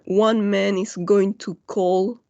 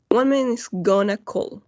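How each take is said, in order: First: "Going to" is said in full. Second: "Going to" is reduced to "gonna".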